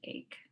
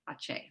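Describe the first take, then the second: First: The word ends with a k sound. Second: The word ends with an s sound. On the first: The speaker calls it wrong. "I don't want to pronounce it ache" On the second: The speaker calls it right. "I pronounce this ACE"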